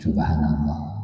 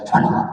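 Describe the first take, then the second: First: It is said slowly. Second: It is said fast.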